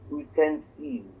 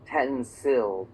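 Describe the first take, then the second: First: It is said with a French pronunciation. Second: It is said with an English pronunciation. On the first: "but in French it would be" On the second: "in English we have the sound u"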